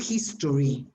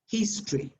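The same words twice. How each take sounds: First: The ending is said as a full 'tory'. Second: The ending is squeezed into one 'tree' syllable. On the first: The speaker calls it wrong. "It's not history" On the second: The speaker calls it right. "most words are pronounced tree"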